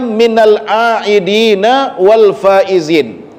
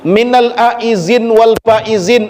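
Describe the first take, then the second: First: The second word has d and a final vowel. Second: The second word is said with a z sound. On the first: The speaker calls it right. "Yang benar itu kalimatnya" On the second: The speaker calls it wrong. "cara menyebutnya pun terkadang ada yang belepotan juga"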